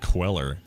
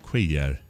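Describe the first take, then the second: First: The double L is said as an L sound. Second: The double L is said as a Y sound. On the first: The speaker calls it wrong. "We've been going Queller" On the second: The speaker calls it right. "that was it"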